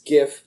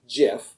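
First: It begins with a hard g sound. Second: It begins with a j sound. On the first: The speaker calls it right. "It's GIF, because graphic is" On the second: The speaker calls it wrong. "not GIF"

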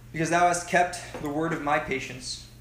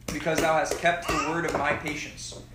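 No difference in how they are said.

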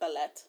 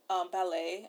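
First: The final t is pronounced. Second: The final t is silent. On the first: The speaker calls it wrong. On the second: The speaker calls it right.

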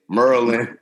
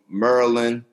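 First: It is said in a local pronunciation. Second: It is said in a standard pronunciation.

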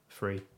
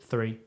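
First: The word begins with an f sound. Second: The word begins with a th sound.

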